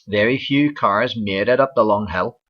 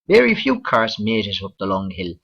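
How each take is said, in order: First: It is spoken in a Northern Irish accent. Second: It is spoken in a Southern Irish accent. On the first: "here in Northern Ireland" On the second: "going south into the Republic of Ireland"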